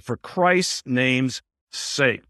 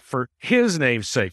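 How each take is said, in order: First: Slow, Christ's leaned on and falling; stress on Christ's. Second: Said in the usual way. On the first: Shown as a demonstration. Teacher explaining the verse, stressing Christ's slowly. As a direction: draw out Christ's name's sake. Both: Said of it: "notice there it's in Christ".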